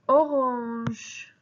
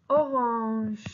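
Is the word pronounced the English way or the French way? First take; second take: French; French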